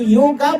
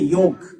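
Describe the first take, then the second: First: The word ends with a final 'a' vowel. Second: The word ends on the consonant, no vowel. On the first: The speaker calls it wrong. "हम लोग योगा बोलते हैं" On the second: The speaker calls it right. "इसका उच्चारण होना चाहिए योग"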